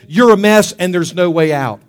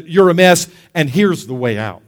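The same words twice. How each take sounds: First: Loud, accusing verdict; condemnation. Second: Conviction. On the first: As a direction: pronounce it forcefully, like an accuser. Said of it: "condemnation says". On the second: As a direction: state the fault, then ease down into the remedy. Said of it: "Conviction comes and says". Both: Acted.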